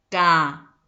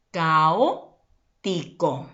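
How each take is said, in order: First: "caótico" broken into ca, o, ti, co; syllable by syllable. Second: "caótico" slowly, in two chunks, cao and tico; deliberate, stretched "caótico"; slow careful word. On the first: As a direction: sound out each syllable of "caótico" with long pauses. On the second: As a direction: say "caótico" at half speed with a break before ti. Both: Shown as a demonstration. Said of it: "¿Cuántas sílabas tiene?".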